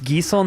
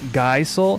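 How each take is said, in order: First: The first syllable sounds like 'ghee'. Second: The first syllable sounds like 'guy'. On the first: The speaker calls it right. "It's Gisel" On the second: The speaker calls it wrong. "not Gaisel"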